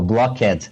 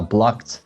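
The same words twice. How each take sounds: First: The -ed ending is said as an extra syllable. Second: The -ed ending adds no extra syllable. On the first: The speaker calls it wrong. "Eu falava o E D" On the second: The speaker calls it right. "em vez de falar blocked"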